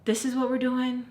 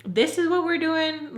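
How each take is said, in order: First: Slightly raised, questioning disbelief. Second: Much higher, louder and slower, incredulous; exasperated disbelief. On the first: To Tommy in the car, annoyed disbelief. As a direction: ask it like you can't believe it. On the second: Repeating to Tommy, fed up, exasperated disbelief. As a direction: stretch it out, fed up and stunned. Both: Retold or imitated. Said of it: "And I'm just like".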